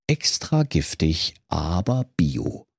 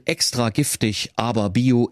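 First: Label read dryly. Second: Said in the usual way. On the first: Acted.

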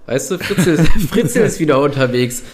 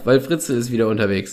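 First: Words squeezed out through giggles; trying to talk while barely holding in laughter; stifled giggles. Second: Said in the usual way. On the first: Real, not acted. Giggling while telling dark joke. (unterdrücktes Kichern)

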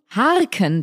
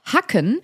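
First: Slow, "harken" stretched with an r; drawn-out harken. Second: "hacken" with a short, stressed a. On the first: Contrasting the rake word for co-host, drawn-out "harken". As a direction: draw out "harken", long a plus r. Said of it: "das macht man mit Rasen". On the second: Listing word categories to co-host, short-vowel "hacken". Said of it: "er führt auf". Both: Shown as a demonstration.

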